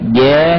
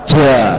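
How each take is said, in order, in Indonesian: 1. Bunyi j-nya biasa, tidak becek. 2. Bunyi j-nya berhembus, ada udara keluar. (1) "Tapi ini kurang tepat sebenarnya" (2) "jangan kayak orang Jawa. ... Itu juga salah. ... Dia hamas"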